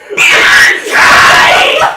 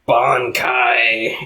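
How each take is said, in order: First: It is shouted very loudly. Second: It is said quietly and calmly.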